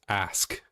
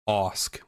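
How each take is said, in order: First: The vowel is the 'a' of 'ask'. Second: The vowel is an open 'aw' sound. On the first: "versus ask" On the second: "pronunciate Osk with A U S K"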